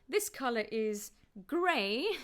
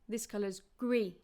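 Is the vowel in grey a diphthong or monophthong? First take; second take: diphthong; monophthong. First: Grey has a gliding diphthong vowel. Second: Grey has a narrow, closed single vowel. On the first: "rather than" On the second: "They'd say"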